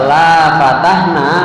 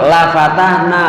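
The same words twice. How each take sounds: First: The vowel in 'la' is drawn out long. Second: The vowel in 'la' is kept short. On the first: We would not open it. The speaker calls it wrong. "salah baca" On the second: We would surely open it. The speaker calls it right. "lamnya dibaca pendek"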